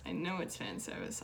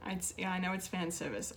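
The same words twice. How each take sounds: First: Plain. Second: Said in the usual way. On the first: Shown as a demonstration.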